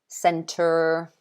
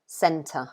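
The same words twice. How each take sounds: First: It ends with a strong r sound. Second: It ends with a schwa, no r sound. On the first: "so they say the r" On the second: "this uh sound, is basically at the end of all of these three words"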